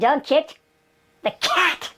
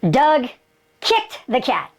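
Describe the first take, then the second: First: The word cat carries the main stress. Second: The word kicked carries the main stress. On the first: It was the cat, not something else. "he didn't kick the dog, he didn't kick the rat" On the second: It was kicking, not some other action. "he kicked him. Didn't hit him"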